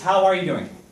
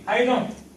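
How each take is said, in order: First: Every word is said fully, with the final g. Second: The 'are' is dropped and 'doing' loses its g. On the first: "It's how are you doing?" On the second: "Not even G"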